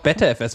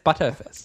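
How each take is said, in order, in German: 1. Der erste Teil klingt wie 'better'. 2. Der erste Teil klingt wie 'butter'. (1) "Du würdest auch BetterFS wahrscheinlich sagen" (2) "Aber es heißt ButterFS"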